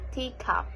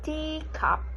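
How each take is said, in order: First: Both parts carry roughly equal stress. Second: The stress falls on the first part, tea. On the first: The speaker calls it wrong. "Don't say teacup" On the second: The speaker calls it right. "We say teacup"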